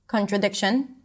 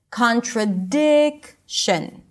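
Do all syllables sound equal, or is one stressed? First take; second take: equal; one stressed. First: All syllables are equally long and equally high. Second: One syllable is longer and higher than the rest. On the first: The speaker calls it wrong. "all syllables might sound the same" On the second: The speaker calls it right. "we want to stretch that syllable and say it a little higher in pitch and sometimes a little louder"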